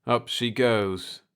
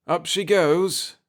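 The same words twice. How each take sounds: First: Slow, dull, falling "Up she goes"; "Up she goes" dragged slow, flat, falling off. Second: Slow, tense lift rising at the end; "up she goes" slow with a hopeful rise on goes. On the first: Jeff echoing his father, flat and dull. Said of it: "His words were flat and dull". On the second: Pete to his son as the ship lifts, tense. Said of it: "said Pete tensely". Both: A narrator's reading.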